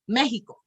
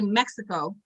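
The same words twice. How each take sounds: First: The word is pronounced the Spanish way. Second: The word is pronounced the English way. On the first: "in Mexican you would say Mexicano, right? Or Mexico" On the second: "in English we say Mexico"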